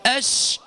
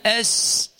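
First: أش with full hushing sh from mid-tongue; correct shin. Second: أش with a thin, misplaced, long sh; faulty shin. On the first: Teacher shows the proper letter, clear mid-tongue sh. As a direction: spread the air on the sh of أش. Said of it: "هكذا". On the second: Teacher contrasts the wrong sound, drawn-out misplaced sh. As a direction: push the sh of أش forward off mid-tongue. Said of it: "وليس". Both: Shown as a demonstration.

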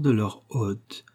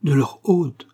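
First: "hôte" read as hotte, drawn out slowly; slow, unsure "hôte", as in hotte; puzzled misreading. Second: "hôte" with a long closed ô, louder and higher; emphatic "hôte" with a rounded long o; corrected reading. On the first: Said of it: "parut chercher à comprendre". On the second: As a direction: try "hôte" as the word for host, stressed. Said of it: "Ah non, c'est bien hôte". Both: A narrator's reading.

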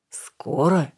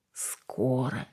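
First: Hopeful question. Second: Soft, quiet reassurance; reassuring. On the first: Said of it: "с надеждой переспросил он". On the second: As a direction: settle him gently. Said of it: "заверила девушка". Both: A narrator's reading.

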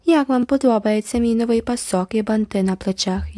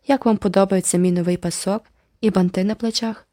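First: Mocking mimicry. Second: Haughty. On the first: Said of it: "ядуче передражнила її Джеральдіна". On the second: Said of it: "зверхньо поцікавилася Айві". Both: A narrator's reading.

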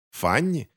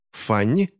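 First: Higher-pitched, mildly derisive question; amused scorn. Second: Startled, caught-out question; choking on the name. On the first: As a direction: say the name as if laughable. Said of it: "Он рассмеялся". (насмешливо переспрашивая) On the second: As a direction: say the name as if it sticks. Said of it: "будто поперхнулся именем мадам". (поперхнувшись от неожиданности) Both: A narrator's reading.

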